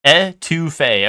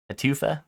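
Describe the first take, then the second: First: "Etouffee" said slowly as eh-too-FAY, falling to settle it; careful pronunciation. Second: "Etufa" said eh-TOO-fuh with an unsure rising end; wrong pronunciation. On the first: Finally getting the dish name right for chat, slow "Etouffee" as eh-too-FAY. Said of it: "Okay, etouffee". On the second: Reading a dish name to chat, unsure "Etufa" as eh-TOO-fuh. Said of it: "The accents always screw me up". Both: Shown as a demonstration.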